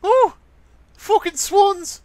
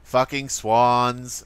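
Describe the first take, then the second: First: Loud, slow falsetto imitation; mock falsetto outburst; high squeaky voice. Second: Slow, low-key mock grumble; drawn-out put-on mutter; imitation of friend. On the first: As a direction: curse in a very high put-on voice. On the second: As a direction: draw it out slowly, imitating a friend. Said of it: "now you're trying to imitate me".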